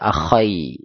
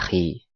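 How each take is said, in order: First: The word ends with an ai sound. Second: The word ends with a plain i sound. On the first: The speaker calls it wrong. "Enggak bisa dibaca akhai, nanti artinya beda lagi" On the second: The speaker calls it right. "baca akhi"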